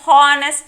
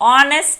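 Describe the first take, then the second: First: The word starts with an audible h. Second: The word starts with a vowel, no h. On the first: The speaker calls it wrong. "హానెస్ట్ అనం" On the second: The speaker calls it right. "దీన్ని ఆనెస్ట్ అంటాం"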